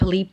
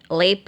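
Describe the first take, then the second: First: The vowel is a plain i. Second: The vowel is a plain e.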